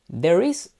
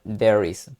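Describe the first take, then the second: First: "There is" with a rising tune like an open choice; teacher posing "There is" as a choice, rising; questioning option. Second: "there is" with a firm falling tune; teacher confirming "there is", falling; confirming answer. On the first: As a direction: offer "There is" as one option, rising at the end. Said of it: "Tendríamos que poner aquí". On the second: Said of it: "Correcto, sería". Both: Shown as a demonstration.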